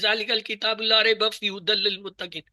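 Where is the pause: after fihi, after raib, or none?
none. It is read straight through without any pause. The speaker calls it wrong. "इसको लगातार नहीं पढ़ेंगे, ऐसे नहीं पढ़ेंगे"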